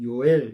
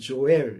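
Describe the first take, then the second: First: The name begins with a Y sound. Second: The name begins with a J sound. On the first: "우리 발음으로는 요엘 이렇게 얘기해요" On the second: "영어로는 조엘 이렇게 발음을 하죠"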